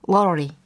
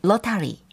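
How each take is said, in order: First: The middle consonant is a soft flapped r-like sound. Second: The middle consonant is a clear t sound.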